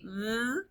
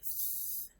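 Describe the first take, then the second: First: The th sound is voiced, with a buzz. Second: The th sound is voiceless, only air. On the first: "There's voiced, where we say" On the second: "and then there's unvoiced, where we say"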